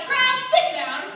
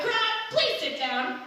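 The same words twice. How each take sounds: First: High, loud shouted command; bossy shout, pitched up; disciples' shout. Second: Higher, slow, politely corrected call; mild, polite request to a crowd. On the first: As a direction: shout it as an order to a crowd. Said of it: "the disciples stopped jumping and shouted". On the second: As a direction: call it out slowly with a courteous please. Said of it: "knew what this meant, so they shouted". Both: A narrator's reading.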